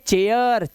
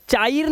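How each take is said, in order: First: चेयर as "che-yar", e gliding into a; correct pronunciation. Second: चायर with an open "chaa-ir"; wrong pronunciation. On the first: Teacher explaining why it is said so, correct pronunciation. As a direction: sound out चेयर with the "eya" glide. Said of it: "इसे इसलिए बोलते हैं चेयर". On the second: Teacher showing what people don't say, wrong pronunciation. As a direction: misread it as चायर, "aai" for "eya". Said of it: "चायर नहीं बोलते". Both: Shown as a demonstration.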